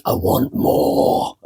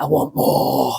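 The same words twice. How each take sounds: First: Slow, whispered greedy gremlin. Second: Whispered greedy gremlin croak. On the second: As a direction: rasp it like a greedy little gremlin. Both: Retold or imitated. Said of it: "like a greedy gremlin voice".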